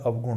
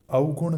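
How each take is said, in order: First: Said in the usual way. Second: अवगुण mispronounced as औगुण, higher; wrong pronunciation. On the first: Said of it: "अवगुण होता है". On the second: Shown as a demonstration. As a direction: merge the av of अवगुण into au. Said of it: "अवगुण नहीं होता है". (अवगुण में अव की जगह औ)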